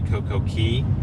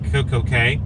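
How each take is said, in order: First: The last word rhymes with 'see'. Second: The last word rhymes with 'day'. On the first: The speaker calls it right. "It should be Coco Key" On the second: The speaker calls it wrong. "I know it's not pronounced right"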